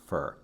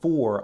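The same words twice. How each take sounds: First: The word is said quickly with a weak vowel. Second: The word is said fully and clearly. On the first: "I'll say for" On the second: "instead of for"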